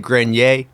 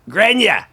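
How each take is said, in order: First: The name has a French Canadian pronunciation. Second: The name has a Boston accent pronunciation. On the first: "French Canadian might say Grenier" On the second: "Back in Boston, they might say"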